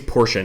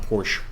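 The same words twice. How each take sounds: First: The name is said in a non-American way. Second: The name is said the American way. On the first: The speaker calls it right. "I think it's Porsche" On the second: The speaker calls it wrong. "Porsche is just how us Americans say it"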